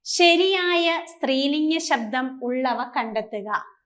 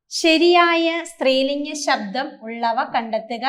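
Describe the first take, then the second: First: Slow, deliberate reading of the question; slow dictation. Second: Said in the usual way. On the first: Shown as a demonstration. Teacher reading the exam question aloud to students, slow and deliberate. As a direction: read it out slowly so students can follow. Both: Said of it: "എന്നാണ് ട്ടോ".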